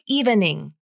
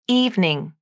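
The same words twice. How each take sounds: First: The word is said with three syllables. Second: The word is said with two syllables. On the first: The speaker calls it wrong. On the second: The speaker calls it right.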